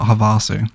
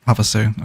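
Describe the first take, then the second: First: The A vowel is full and strongly pronounced. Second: The A vowel is light and reduced. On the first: The speaker calls it wrong. "not Havasu" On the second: The speaker calls it right. "The A isn't as pronounced as I was making it"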